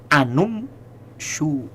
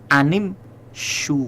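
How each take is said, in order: First: The vowel before mshu is a u sound. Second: The vowel before mshu is an i sound. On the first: The speaker calls it wrong. "tidak anum shu" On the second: The speaker calls it right. "yang sedang kita bicara kalimat anim shu"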